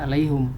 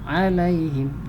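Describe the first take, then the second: First: The final syllable has a u vowel. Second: The final syllable has an i vowel. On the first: The speaker calls it wrong. "Jangan dibaca alaihum" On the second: The speaker calls it right. "maka dibaca kasroh"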